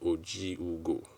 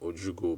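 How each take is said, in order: First: An extra vowel sound comes between the J and U. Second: No vowel sound comes between the J and U. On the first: The speaker calls it right. "but I think it's Ojiugo" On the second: The speaker calls it wrong. "I keep saying Ojugo"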